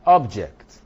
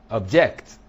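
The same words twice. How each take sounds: First: "Object" punched loud on OB; stress on first syllable. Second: "object" punched loud on JECT; stress on second syllable. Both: Shown as a demonstration. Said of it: "is in the placement".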